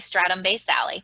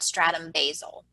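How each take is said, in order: First: The last word ends with an extra vowel sound. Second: The last word ends without a final vowel sound. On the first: A pronunciation that matches the spelling. "I pronounce it basale, so I can remember to put the E at the end" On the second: A pronunciation some people use. "some people call it stratum basal"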